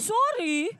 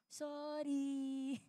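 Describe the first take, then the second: First: The apology sounds grudging and angry. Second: The apology sounds soft and sincere. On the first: The apology is given resentfully. The speaker calls it wrong. "Wag ganyan, hindi galit" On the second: The apology is truly meant. The speaker calls it right. "Hindi ganyan yung mas maayos"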